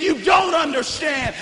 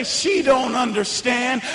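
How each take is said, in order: First: Shouted, leaning hard on don't; screamed at grandma. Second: Voice in my head. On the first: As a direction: hurl it at her, hitting don't. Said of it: "just screamed at her and said". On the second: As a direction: let the doubt murmur slowly. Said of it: "that voice in my head would say". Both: Retold or imitated.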